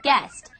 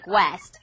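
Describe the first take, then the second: First: The word is said with no U sound. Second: The word is said with a w-like U sound. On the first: The speaker calls it right. "the U is silent like in the English word guest" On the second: The speaker calls it wrong. "You don't say guest. If you do, your friends probably titter behind your back"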